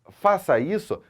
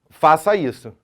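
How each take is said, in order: First: It is said as a question. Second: It is said as a plain statement. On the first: It asks whether to do it. "num aspecto interrogativo" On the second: It is an instruction. "num aspecto afirmativo"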